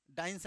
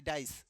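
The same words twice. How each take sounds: First: डाइंस with a nasal n before the s; the mistaken डाइंस, nasalised; wrong pronunciation. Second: डाइस said cleanly as "dice", no nasal; the right डाइस, like English dice; correct pronunciation. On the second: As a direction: give डाइस as the corrected form, plain s ending. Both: Shown as a demonstration. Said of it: "डाइंस नहीं".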